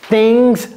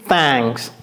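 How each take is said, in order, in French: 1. La voyelle se prononce comme un i bref. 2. La voyelle se prononce comme un a ouvert.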